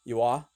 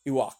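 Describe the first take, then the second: First: The name ends in an open vowel. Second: The name ends in a hard k sound. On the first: "one was Iwa" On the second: "Ewok with a certain with a German accent"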